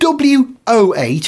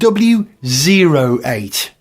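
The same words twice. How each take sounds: First: The middle character is read as the letter oh. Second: The middle character is read as the number zero. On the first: "Everyone says W O" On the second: "But I think it's a zero"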